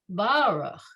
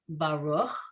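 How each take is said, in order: First: The stress is on the first syllable. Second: The stress is on the second syllable. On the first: This is how the word is heard when sung. "when they sing it, it's Baruch" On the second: This is how the word is said when read. "the emphasis is on the second syllable"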